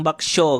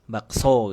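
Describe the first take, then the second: First: The syllable so starts with an sh sound. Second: The syllable so starts with a plain s sound. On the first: The speaker calls it wrong. "pasti antum nggak mungkin bilang bakso gitu kan, bakso gitu kan, lucu ya" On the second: The speaker calls it right. "So itu benar kayak gitu"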